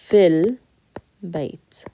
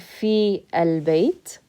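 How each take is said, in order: First: Fi runs straight into the l sound. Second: Fi and al are said as separate syllables. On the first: The speaker calls it right. "we're going to say fil bayt" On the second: The speaker calls it wrong. "instead of saying fi al-bayt"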